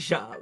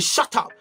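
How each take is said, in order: First: It is said softly, in a pleading way. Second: It is said sharply, in a forceful way. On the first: The request is affectionate and not hostile. The speaker calls it right. "it's kind of cute" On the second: The request comes across as an aggressive command. The speaker calls it wrong. "the energy you said with that word shut up. Now the person's pissed"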